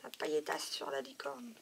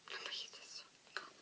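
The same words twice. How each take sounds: First: Said in the usual way. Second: Quick, breathy whisper; a fast, hushed aside. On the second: Real, not acted. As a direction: whisper it to yourself, a bit faster. Repeats the phrase under her breath.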